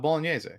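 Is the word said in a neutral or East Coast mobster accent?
neutral. It is said in a plain, neutral accent.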